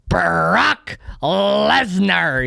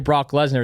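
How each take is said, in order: First: It is said with booming announcer oomph. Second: It is said in a plain speaking voice.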